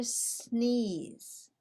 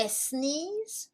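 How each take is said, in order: First: "sneeze" starting straight on a long S; one syllable "sneeze", no vowel before the S; clean initial S. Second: "sneeze" with an extra "eh" in front; added E before S. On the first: Teacher offers learners the right choice, clean initial S. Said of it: "we do not use the letter E". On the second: Teacher offers learners the wrong choice, added E before S. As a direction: say "sneeze" wrongly as es-NEEZE, two syllables. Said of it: "do we say sneeze or sneeze?". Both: Shown as a demonstration.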